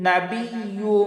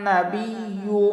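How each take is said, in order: The two takes are said the same way.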